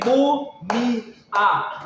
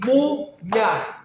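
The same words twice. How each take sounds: First: "mu-mi-a" in three separate, slow beats; wrong three-syllable split. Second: "múmia" in two slow beats, mú-mia; correct two-syllable split. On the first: Teacher showing the wrong division, "mu-mi-a" in three beats. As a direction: break "mu-mi-a" apart, giving i and a a beat each. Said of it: "Você não tem mu-mi-a". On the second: Teacher showing the right division, "múmia" in two beats. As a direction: split "múmia" once, gliding the final ia together. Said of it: "você tem múmia". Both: Shown as a demonstration.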